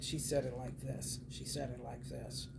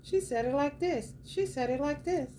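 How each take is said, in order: First: Imitating Divine Femme. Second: High mock voice of the lady, much higher; mocking Divine Femme. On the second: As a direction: pitch it way up to mimic her. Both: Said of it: "How did she say it?".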